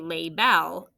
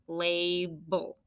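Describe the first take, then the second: First: The second syllable has a full short vowel. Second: The second syllable has a weak schwa vowel. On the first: The speaker calls it wrong. "But this vowel isn't short. We don't say label" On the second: The speaker calls it right. "It's just a schwa. It's almost like it doesn't even exist"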